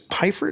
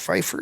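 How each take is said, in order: First: The name starts with a plain p sound. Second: The name starts with a pf sound. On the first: This is the family's original pronunciation. The speaker calls it right. "Your name is Piper" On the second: This is the professional name the speaker chose. The speaker calls it wrong. "not Pfeiffer"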